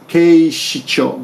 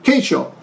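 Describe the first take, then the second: First: Every syllable, including the middle shi, is pronounced. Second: The middle shi syllable is dropped out entirely. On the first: The speaker calls it right. "it's actually" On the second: The speaker calls it wrong. "But I heard keisho"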